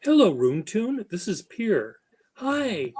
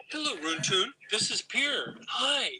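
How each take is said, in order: First: High, bright sing-song hello; demo selfie greeting. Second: High but softer sing-song hello; hushed, higher put-on hello, final hi pitched way up; softer demo greeting. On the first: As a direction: model a chirpy video greeting. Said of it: "I'll show you". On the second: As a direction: coax it gently for the camera. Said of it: "See, this is what you do". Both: Shown as a demonstration.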